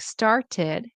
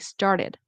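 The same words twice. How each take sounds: First: The middle t is a clear, full t. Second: The middle t is a quick flap. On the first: The speaker calls it wrong. "Instead of saying started" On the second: The speaker calls it right. "you want to say started"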